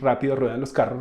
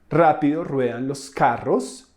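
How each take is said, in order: First: It is said fast. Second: It is said slowly.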